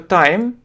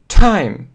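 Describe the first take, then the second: First: The t is said without a puff of air. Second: The t is said with a puff of air. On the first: The speaker calls it wrong. "многие говорят просто time" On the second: The speaker calls it right. "эти буквы говорят с придыханием"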